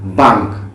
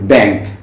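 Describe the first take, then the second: First: The vowel is the Swedish a sound. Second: The vowel is the English a sound. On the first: "in Swedish ... it is pronounced bank" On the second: "B A N K in English, it is bank"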